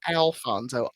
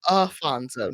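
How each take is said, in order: First: An L sound comes before the F. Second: There is no L sound before the F. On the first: The speaker calls it wrong. "not Alfonso" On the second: The speaker calls it right. "Afonso, not Alfonso"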